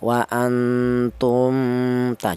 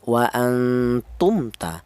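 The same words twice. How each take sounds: First: The m sound is blurred and hidden. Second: The m sound is pronounced clearly. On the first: The speaker calls it wrong. "Jangan dibaca samar yang mim ini" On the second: The speaker calls it right. "mim mati ini dibaca jelas"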